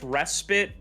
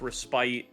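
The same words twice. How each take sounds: First: The word is pronounced the American way. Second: The word is pronounced the British way. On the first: "it's respite in America" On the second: "It's respite in in ye old Britain"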